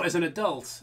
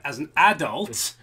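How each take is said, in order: First: Adult is pronounced with an American-sounding accent. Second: Adult is pronounced in the speaker's normal accent. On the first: The speaker calls it wrong. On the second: The speaker calls it right.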